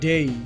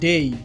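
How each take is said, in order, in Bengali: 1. স্বরধ্বনিটি 'e' থেকে 'ee'-তে গড়িয়ে যায়। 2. স্বরধ্বনিটি 'e' থেকে 'ee'-তে গড়িয়ে যায়।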